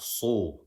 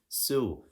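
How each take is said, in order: First: The s sound is heavy and emphatic. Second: The s sound is light and plain. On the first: The speaker calls it wrong. "not su, a heavy sod" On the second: The speaker calls it right. "we're saying the light scene"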